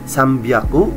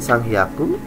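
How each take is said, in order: First: The second part starts with a b sound. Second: The second part starts with an h sound. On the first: The speaker calls it right. "tiga ratus itu sambyaku" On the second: The speaker calls it wrong. "bukan sanghyaku"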